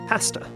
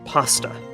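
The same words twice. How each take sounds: First: The first vowel has a Canadian sound. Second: The first vowel has an American sound. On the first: This is how people in Canada say it. "We say pasta, we do the A sound like in master and dancer" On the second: This is how people in the United States say it. "but they say pasta"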